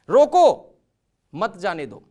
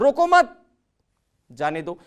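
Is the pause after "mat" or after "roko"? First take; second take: after roko; after mat. First: There is a pause right after "roko". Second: There is a pause right after "mat". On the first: Stop the person; do not let them go. "मैं बोल रहा हूं सामने वाले को रोको, जाने मत दो" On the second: Do not stop the person; let them go. "मत रोको, जाने दो"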